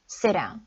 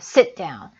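First: The T is dropped and the words run together. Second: The T is held with a brief stop. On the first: "하나를 빼고 요렇게 소리를 낼 수도 있어요" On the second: "T 다음에 자음이 오면 소리를 살짝 끊어주셔야 돼요"

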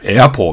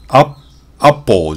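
First: The first vowel sits between 'ah' and 'eh'. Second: The first vowel is a plain open 'ah'. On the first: The speaker calls it right. "エアポーみたいな" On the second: The speaker calls it wrong. "アアポーじゃなくて"

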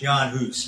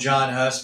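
First: The name is pronounced the native way. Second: The name is pronounced the English way. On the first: The speaker calls it right. "It's Jan Hus" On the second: The speaker calls it wrong. "We speak English, so I'll call him John Hus, but it's not the correct pronunciation of his name"

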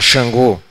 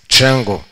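First: The word begins with a soft 'sh' sound. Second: The word begins with a 'ch' sound. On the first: This is how Brazilians say it. "A gente tem um som X. E fala Xangô" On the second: This is how Spanish-speaking Cubans say it. "Em espanhol não tem, você tem Tch. Então ele falou"

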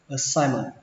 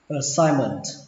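First: The final T sound is dropped. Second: The final T sound is pronounced.

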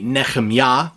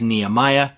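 First: The name is pronounced with Hebrew sounds. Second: The name is pronounced with English sounds. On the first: "the proper or closer to proper way to say this in Hebrew would be" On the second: "we often hear it in English as"

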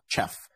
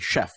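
First: The word begins with a hard 'ch' sound. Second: The word begins with a soft 'sh' sound. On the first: The speaker calls it wrong. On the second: The speaker calls it right. "You say this as chef with like a C. SH rather than a CH"

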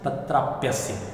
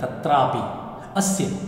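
First: The i becomes y, joining both into one word. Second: The two words are said separately, ending in i.

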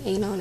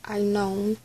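First: The name begins with a short 'ah' sound. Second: The name begins with an 'eye' sound. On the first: The speaker calls it wrong. "So I was saying it wrong, it's not even Anon" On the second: The speaker calls it right. "it's I known"

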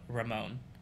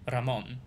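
First: The R is not rolled. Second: The R is rolled. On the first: The speaker calls it wrong. "instead of Ramon" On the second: The speaker calls it right. "I should be saying Ramon"

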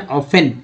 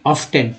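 First: The word is said without a t sound. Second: The word is said with a t sound. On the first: The speaker calls it right. "शुद्ध उच्चारण ऑफन" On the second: The speaker calls it wrong. "ना कि ऑफ्टन, टी यहाँ silent है"

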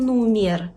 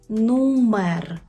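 First: The second vowel is an i sound. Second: The second vowel is an e sound. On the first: The speaker calls it wrong. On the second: The speaker calls it right.

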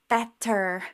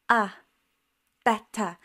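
First: The final syllable is a full, stressed sound. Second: The final syllable is a weak, unstressed schwa. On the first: The speaker calls it wrong. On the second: The speaker calls it right.

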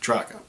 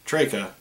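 First: The first syllable does not sound like 'Drake'. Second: The first syllable sounds like 'Drake'. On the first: The speaker calls it wrong. "not Draka" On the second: The speaker calls it right. "the pronunciation should be Draka, since the country was named after Sir Francis Drake"

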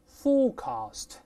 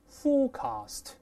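No difference in how they are said.

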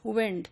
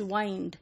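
First: The vowel is a short 'ih' sound. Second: The vowel is a long 'eye' sound. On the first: This is the modern pronunciation. "now we pronounce it as wind" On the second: This is the older pronunciation from Shakespeare's time. "It used to be pronounced in Shakespearean times ... as wind. So, you know, like we pronounce kind"

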